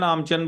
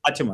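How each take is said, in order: First: The middle consonants are swapped: 'aam-chan'. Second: The consonants are in order: 'aach-man'. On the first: The speaker calls it wrong. "आचमन को आमचन आमचन बोल रहे हैं" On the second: The speaker calls it right. "आचमन होता है"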